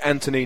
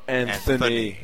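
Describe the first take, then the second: First: The middle consonant is a plain T sound. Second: The middle consonant is a TH sound. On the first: This is how the speaker's own group says it. The speaker calls it right. "we say Anthony" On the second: This is how the listener's group says it. The speaker calls it wrong. "not Anthony, as you people tend to do"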